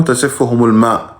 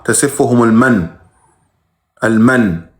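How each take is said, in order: First: Plain reading of تسفهم الماء as the wrong version; wrong wording. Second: تسفهم المن slowly, with المن drawn out and falling; stress on المن. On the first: (النطق الخاطئ تسفهم الماء) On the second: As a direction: lean hard on المن, then repeat المن alone. (تشديد على كلمة المن ببطء) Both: Shown as a demonstration. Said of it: "مو تسفهم الماء".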